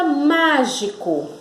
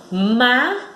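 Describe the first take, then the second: First: Said in the usual way. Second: "mágico" in three separated syllables, má lifted; stressed syllable demo. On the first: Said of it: "olha só". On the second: Shown as a demonstration. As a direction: say "mágico" as MÁ, pause, gi, pause, co. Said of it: "a sílaba mais forte, ela dá um impulso".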